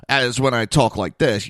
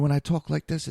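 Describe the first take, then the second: First: Louder, hard-edged delivery; hard harsh voice. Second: Light, quick, softened delivery; soft trusting voice. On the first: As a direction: sound abrasive and untrustworthy. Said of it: "Holy shit, he's an asshole". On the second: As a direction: sound gentle and harmless. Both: Shown as a demonstration.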